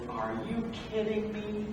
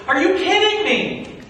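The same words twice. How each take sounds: First: Softer, stunned whisper of disbelief; can't believe what he's asked; hushed disbelief. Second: Loud, higher, incredulous scolding; exasperated rebuke. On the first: Moses to the voice in the bush, hushed and stunned. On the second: Moses scolding two Israelites who are fighting, loud and exasperated. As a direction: call them out in disbelief. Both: Acted.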